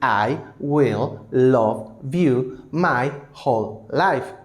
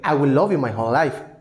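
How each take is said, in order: First: A short pause separates each word. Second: The words run together without any pauses. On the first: The speaker calls it wrong. "no escuchamos a Mel Gibson decir" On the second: The speaker calls it right. "él nunca hizo pausas silábicas"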